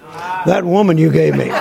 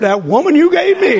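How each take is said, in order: First: It sounds accusing and blaming. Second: It sounds admiring and delighted. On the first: The woman is blamed as a burden. The speaker calls it wrong. "I don't say to care about Carolyn like Adam said about Eve" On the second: The woman is treasured as a gift. The speaker calls it right. "And I say, ooh"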